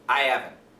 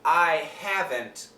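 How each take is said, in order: First: The H in haven't is dropped entirely. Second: The H in haven't is clearly pronounced. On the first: The speaker calls it wrong. "But quickly" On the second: The speaker calls it right.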